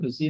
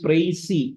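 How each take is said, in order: First: The first vowel sounds like 'ee'. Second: The first vowel sounds like 'eye'. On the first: The speaker calls it wrong. "അത് എൻ്റെ pronunciation പ്രിസി എന്നല്ല" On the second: The speaker calls it right. "It is പ്രൈസി"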